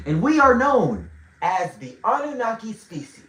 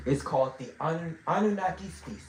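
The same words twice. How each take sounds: First: "Anunnaki" said whole, without a stumble; emphatic restatement. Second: Stumbling over "Anun-, Anunnaki"; stuttering. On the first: Teacher restating the species name after stuttering, firmly emphatic. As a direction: lean loudly on "we are", then deliver "Anunnaki" fluently. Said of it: "so I'm gonna say it again". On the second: Teacher naming the species to the class, stuttering. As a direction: break off at "Anun-", then restart the word more softly. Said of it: "I don't know why I'm stuttering". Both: Real, not acted.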